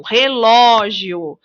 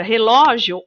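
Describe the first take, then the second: First: "relógio" slowed down, LO long and strong; stress on LO. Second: Said in the usual way. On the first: Shown as a demonstration. Teacher showing children the tonic syllable, stressed LO in "relógio". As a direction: stretch the middle "ló" of "relógio". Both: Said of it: "o ló".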